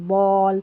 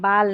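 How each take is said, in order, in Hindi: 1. स्वर गोल किया हुआ 'aw' है। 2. स्वर खुला, बिना गोलाई वाला 'ah' है। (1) "ए डबल एल को ऑल पढ़ना है" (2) "जैसे इसको बाल पढ़ देते हैं, बाल नहीं"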